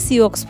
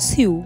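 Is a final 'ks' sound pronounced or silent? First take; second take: pronounced; silent. First: The word ends with a 'ks' sound. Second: The word ends in a vowel sound. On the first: The speaker calls it wrong. "আমি উচ্চারণ করি সিওক্স ফলস বলে" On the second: The speaker calls it right. "আসল উচ্চারণ হলো সিউ"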